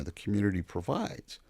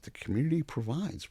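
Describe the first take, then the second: First: Said in the usual way. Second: Incredulous echo. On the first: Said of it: "He goes". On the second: Retold or imitated. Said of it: "I said".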